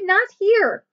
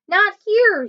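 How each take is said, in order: First: High, louder repeated warning; shouting again. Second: High, louder warning shout. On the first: Annie shouting again at the wildebeest, high and louder. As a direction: repeat "not here" high and loud, a touch less force. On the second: Annie shouting at the swimming wildebeest, high and louder. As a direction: wave them off with a high, loud shout of "Not here". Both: Acted. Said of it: "she shouted".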